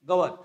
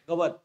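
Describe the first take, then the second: First: The final vowel is dropped. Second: The final vowel is dropped.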